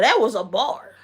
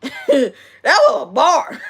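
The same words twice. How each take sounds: First: Said in the usual way. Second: Slow, higher, through laughter; laughing. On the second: Real, not acted. Streamer tickled by her own line, laughing. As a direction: crack up while savoring the words. Repeats it, cracking up.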